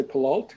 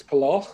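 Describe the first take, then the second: First: "Palalt" said pə-LALT with a final t sound; common mispronunciation. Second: "Palal" said pə-LAL, ending on l with no t; correct pronunciation. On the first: Elder showing listeners the wrong way, "Palalt" with a t. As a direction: say "Palalt" the way outsiders do, ending on t. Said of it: "or people say". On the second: Elder correcting listeners, "Palal" with no final t. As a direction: give "Palal" its right form, ending on l. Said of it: "but it's Palal". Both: Shown as a demonstration.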